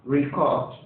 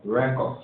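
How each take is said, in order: First: "Record" as a verb, ri-KORD; second-syllable stress. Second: "Record" as a noun, REK-ord; first-syllable stress. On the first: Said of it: "And the next one?". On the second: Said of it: "try to pronounce that again". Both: Shown as a demonstration.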